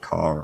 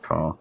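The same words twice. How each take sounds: First: The R sound after the vowel is pronounced. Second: The R sound after the vowel is dropped.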